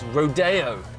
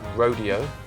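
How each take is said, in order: First: It is said a posher-sounding way. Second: It is said the ordinary, plain way. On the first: The speaker calls it right. "I'm reliably informed it's Rodeo. I think because it sounds a bit posher" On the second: The speaker calls it wrong. "I would have thought you'd pronounce it Rodeo"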